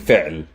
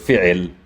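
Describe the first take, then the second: First: No vowel follows the ain sound. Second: An i vowel follows the ain sound. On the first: The speaker calls it right. "I'm saying fi'l ... there's no vowel sound" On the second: The speaker calls it wrong. "or fi'il"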